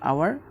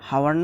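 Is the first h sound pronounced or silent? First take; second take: silent; pronounced. First: The word begins directly with a vowel sound. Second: The word begins with an audible h sound. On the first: The speaker calls it right. "এই শব্দের উচ্চারণটা হচ্ছে গিয়ে আওয়ার" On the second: The speaker calls it wrong. "এই শব্দের উচ্চারণটা আসলে হাওয়ার না"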